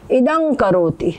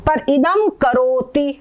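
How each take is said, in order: First: इदं करोति slow, nasal ं before करोति; correct इदं करोति. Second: इदम करोति said slowly, म joined to करोति. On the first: Teacher giving the correct इदं करोति. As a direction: say इदं करोति the right way, slowly. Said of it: "ये इसका सही हो जाएगा". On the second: Teacher slowly reading इदम करोति for students. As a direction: read इदम करोति slowly as one phrase. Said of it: "ऐसे अकेले इदम लिखा". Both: Shown as a demonstration.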